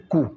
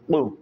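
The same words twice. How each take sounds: First: The q sound is made like a plain k. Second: The q sound is made deep in the throat. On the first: The speaker calls it wrong. "pas simple Qou. Sinon, ça va devenir le K" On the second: The speaker calls it right. "il y a une tonalité dans la gorge"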